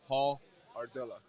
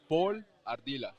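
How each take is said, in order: First: The name is said with an American pronunciation. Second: The name is said with a Spanish pronunciation.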